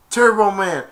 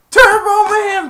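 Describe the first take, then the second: First: Raised, loud call; excited shout. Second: Very high, drawn-out mock scream; frenzied yell. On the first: Retold or imitated. Shoppers hearing about more Turbo Man dolls, excited shout. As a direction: call the toy's name out. Crowd calling out the toy. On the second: Shoppers going wild for Turbo Man, frenzied scream. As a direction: stretch it into a piercing crowd yell. Crowd calling louder, second take.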